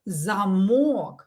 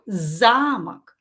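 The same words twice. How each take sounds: First: The stress is on the second syllable. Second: The stress is on the first syllable. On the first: It means a lock. "And in this one, we stress O" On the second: It means a castle. "In this one, we stress A"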